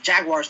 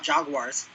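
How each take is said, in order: First: Jaguars said the proper way, with a short "a" as in "jag"; corrected pronunciation. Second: Jaguars said the faulted way, with an "ah" as in "jog"; mispronunciation quoted. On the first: Co-host correcting Carl's pronunciation, Jaguars said properly. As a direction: say Jaguars carefully as the correct form. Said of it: "it's pronounced Jaguars". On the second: Co-host quoting Carl's slip, Jaguars mispronounced. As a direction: say Jaguars as "Jog-wars", the form being corrected. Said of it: "not Jaguars". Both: Shown as a demonstration.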